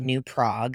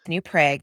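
First: Prague is said the Czech-style way. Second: Prague is said the local Minnesota way. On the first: This follows how the name is said in the old country. "because that's how you say it in Czechoslovakia" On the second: This is how locals say the town name. "because we're in Minnesota"

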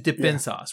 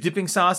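First: The word ends with an -in sound. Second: The word ends with a full -ing sound. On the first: The speaker calls it right. "There's no G in dipping sauce. It's D I P P I N" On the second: The speaker calls it wrong. "better than dipping sauce"

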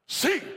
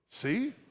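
First: It is said as a sharp command. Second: It is said as a gentle question.

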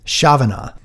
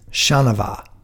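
First: The name ends with a 'na' sound. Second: The name ends with a 'vat' sound. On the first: The speaker calls it wrong. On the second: The speaker calls it right.

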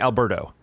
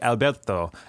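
First: The name is said with English pronunciation. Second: The name is said with Spanish pronunciation. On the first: This is the form used in English sentences. "just call me Alberto" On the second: This is the native form of the name. "I would try to learn how to say it"

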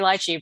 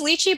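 First: The word is pronounced the English way. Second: The word is pronounced the Chinese way. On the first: "But I think in English, most people say lychee" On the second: "In Chinese, it's lychee"

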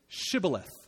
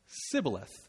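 First: The word begins with an 'sh' sound. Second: The word begins with an 's' sound. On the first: The speaker is one of the in-group. The speaker calls it right. "Say the word for river, which is Shibboleth" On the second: The speaker is an outsider. The speaker calls it wrong. "The Ephraimites can't pronounce the SH sound. So when they try to, it sounds like Sibboleth"

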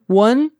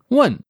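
First: It has the intonation of the question 'really?'. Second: It has the intonation of an exclaimed 'shit'.

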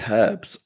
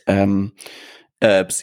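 First: It is said in a British accent. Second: It is said in an American accent. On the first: "We say herbs, being British" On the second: "I like the American pronunciation"

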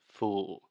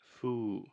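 First: The word ends with a clear final L sound. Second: The word ends in rounded oo with no L. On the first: The speaker calls it right. "the correct pronunciation is fool" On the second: The speaker calls it wrong. "Alexia is saying foo"

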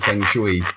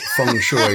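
First: It is said in an anglicized English pronunciation. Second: It is said in a Cantonese-style pronunciation. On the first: This is how most people commonly say it. "everyone calls it Feng Shui" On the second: This is the more accurate original pronunciation. "your pretension in calling it Feng Shui"

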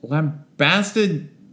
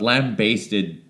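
First: The second syllable rhymes with 'fast'. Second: The second syllable rhymes with 'taste'. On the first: "is how I've always pronounced it in my head" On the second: "like you're basting a lamb"

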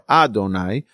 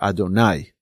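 First: The stress falls before the last syllable. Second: The stress falls on the last syllable. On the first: The speaker calls it wrong. "or Adonai" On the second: The speaker calls it right. "but rather Adonai, okay, on the latter part of the word"

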